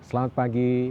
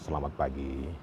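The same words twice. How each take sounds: First: It is said in a flat pitch. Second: It is said in a low pitch.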